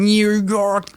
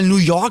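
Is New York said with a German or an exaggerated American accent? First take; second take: American; German. First: It is said with an exaggerated American accent. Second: It is said with a plain German accent. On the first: The speaker calls it wrong. "Die sprechen so krass aus" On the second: The speaker calls it right. "die sagen ja noch nicht mal New York"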